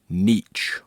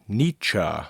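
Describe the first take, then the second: First: The name does not end like 'meet ya'. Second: The name ends like 'meet ya', with 'chuh'. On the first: The speaker calls it wrong. "or Nietzsche" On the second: The speaker calls it right. "The name is pronounced Nietzsche"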